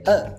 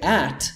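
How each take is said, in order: First: It is reduced to a short weak uh. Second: It has a full vowel and a clear t. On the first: The speaker calls it right. "we say uh" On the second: The speaker calls it wrong. "we don't say at"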